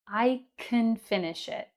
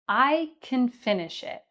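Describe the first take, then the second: First: Can is unstressed with a reduced vowel. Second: Can is unstressed with a reduced vowel.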